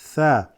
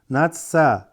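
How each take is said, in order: First: The syllable begins with a 'th' sound. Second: The syllable begins with an 's' sound. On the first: The speaker calls it right. "Tha, not sa" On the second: The speaker calls it wrong. "A lot of people read that sa"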